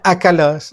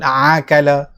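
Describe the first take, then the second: First: It starts with a plain glottal stop. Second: It starts with a throaty ain sound. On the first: The speaker calls it right. "sepatutnya akala, maka dia makan" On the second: The speaker calls it wrong. "tapi sebut akala, maka hamzah itu menjadi huruf ain"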